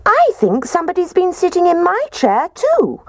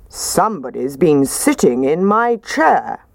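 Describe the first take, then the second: First: Very high, squeaky little bear; squeaking Baby Bear. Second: Gruff father bear voice; gruff Daddy Bear. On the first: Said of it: "And Baby Bear squeaked". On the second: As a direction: grumble it like a big bear. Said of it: "in his gruff voice". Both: A narrator's reading.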